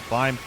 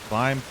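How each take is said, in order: Both takes have the same delivery.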